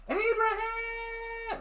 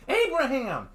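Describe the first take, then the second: First: Very high scream stretched out slowly; drawn-out wailing call; long drawn-out scream. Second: High, loud frantic scream of the name; sharp alarmed scream. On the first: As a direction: hold the name out as long as you can, desperate. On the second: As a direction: shout it in panic to wake him. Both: Acted. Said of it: "I heard Michelle screaming".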